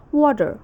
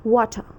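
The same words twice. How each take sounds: First: American "water" ending in a full r; attempted American rhotic "water"; American accent. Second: British "water" ending in uh, no r; attempted British r-less "water"; British accent. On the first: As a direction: say "water" as wah-der, American-style. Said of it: "In American accent, it's". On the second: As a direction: say "water" as wo-tuh, British-style. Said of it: "and in British accent". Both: Shown as a demonstration.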